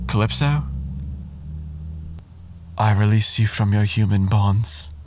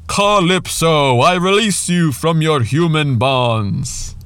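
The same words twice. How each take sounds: First: It is said softly and tenderly, like to a lover. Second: It is said loudly and theatrically, like a proclamation. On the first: The speaker calls it right. "it must be spoken as to a lover" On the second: The speaker calls it wrong. "I love how theatrical he gets with that"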